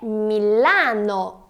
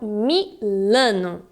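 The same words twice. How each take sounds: First: The stressed A has a wide open sound. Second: The stressed A has a closed, nasal sound. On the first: The speaker calls it right. "é Milano" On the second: The speaker calls it wrong. "e não Milano"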